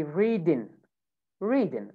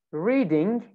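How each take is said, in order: First: "readin'" ending in a plain n, no g; "readin'" American style, final ng turned to n; American dropped G. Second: Said in the usual way. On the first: Shown as a demonstration. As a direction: say "readin'" without the G sound. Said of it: "you remove the G sound". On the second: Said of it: "The word".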